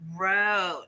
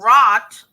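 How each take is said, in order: First: The vowel is a long gliding o. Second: The vowel is a short open o. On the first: The speaker calls it right. "We actually say wrote" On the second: The speaker calls it wrong. "You don't say"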